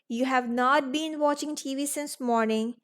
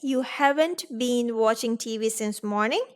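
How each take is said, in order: First: Have not is said as two full words. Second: Have not is shortened to one syllable. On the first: The speaker calls it wrong. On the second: The speaker calls it right.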